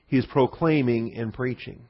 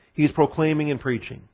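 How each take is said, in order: First: "proclaiming" leaned on, every word slowed; slow emphatic repeat. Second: Said in the usual way. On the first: Shown as a demonstration. Teacher to class, slow emphasis on "proclaiming". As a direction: drive home "proclaiming" slowly and deliberately. Repeats the key phrase slowly.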